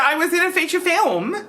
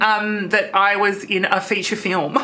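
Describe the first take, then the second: First: Gleeful, higher take; laughing. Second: Said in the usual way. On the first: Acted. Trish gloating to Christian, laughing. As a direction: laugh through the boast.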